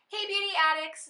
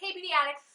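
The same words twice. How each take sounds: First: The s sounds are pronounced clearly. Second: The s sounds are pronounced with a lisp. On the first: "when I say" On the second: "I have such a lisp"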